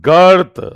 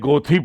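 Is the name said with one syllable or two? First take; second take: one; two. First: It is one syllable with an 'ur' vowel. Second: It is two syllables ending in 'ee'. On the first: "इसको प्रोनाउंस करते हैं गर्थ, अ अर का साउंड आएगा" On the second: "आप भले ही गोथी पढ़ लो, कोई बात नहीं"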